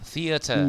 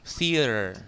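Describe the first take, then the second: First: It is said in a British accent. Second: It is said in an American accent. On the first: "itu British ya" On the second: "Sekarang Amerika"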